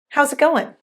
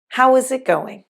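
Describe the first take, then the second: First: Said as 'how's' with 'goin' at the end. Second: Said fully with 'how is' and 'going'.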